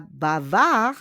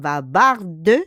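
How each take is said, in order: First: Bavard as "ba-VAR", drawn out, no d; masculine, silent ending. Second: Bavarde slowly and louder, "ba-VAR-duh"; feminine, sounded D. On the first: Teacher gives masculine form, bavard with silent ending. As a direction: end bavard on a long r, d silent. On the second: Teacher gives feminine form, bavarde with sounded d. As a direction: finish bavarde on a clear "duh". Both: Shown as a demonstration. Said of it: "we don't pronounce the S".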